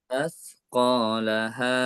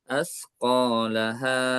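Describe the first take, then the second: First: The final vowel is held a moderate length. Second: The final vowel is drawn out too long. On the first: The speaker calls it right. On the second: The speaker calls it wrong.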